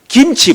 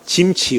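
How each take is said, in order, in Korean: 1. 이 단어는 g 소리로 시작해요. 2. 이 단어는 j 소리로 시작해요. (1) "김치 발음해보세요" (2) "경상도 사람은 김치라고 잘 안 해요. 짐치 그래요"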